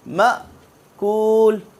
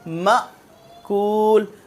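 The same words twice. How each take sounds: The two takes are said the same way.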